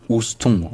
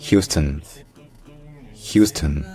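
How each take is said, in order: First: "Houston" dit ous-ton, finale nasale; lecture à la française. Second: "Houston" dit hyous-teun, première syllabe accentuée; prononciation anglaise. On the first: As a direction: lire "Houston" selon l'orthographe française. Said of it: "ne se dit certainement pas Houston". (« Houston » lu ous-ton) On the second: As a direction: accentuer le début de "Houston", finale effacée. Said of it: "Mais en anglais, c'est". (« Houston » à l'anglaise, hyous-teun) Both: Shown as a demonstration.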